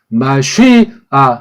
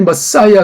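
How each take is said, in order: First: It sounds like 'mah-shee-ah', with a sh sound. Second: It sounds like English 'muh-SY-uh'. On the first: This follows the Old Testament vowel marks. The speaker calls it right. "구약에 모음보돼 있는 발음으로는 마쉬아 그렇게 내야 돼요" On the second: This is how English speakers say it. The speaker calls it wrong. "걔네들이 머싸이야 그러잖아요"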